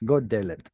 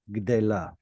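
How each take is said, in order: First: The word begins with 'go'. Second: The word begins with 'gd'. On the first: This is the common everyday form. The speaker calls it wrong. "What do Israelis say?" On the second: This is the standard form. The speaker calls it right. "what is it supposed to be?"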